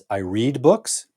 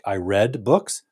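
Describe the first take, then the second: First: Read is said in its present-tense form. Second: Read is said in its past-tense form. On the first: It is a habit. "pronouncing it in the present tense" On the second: It happened at some time before now. "if you're using past tense"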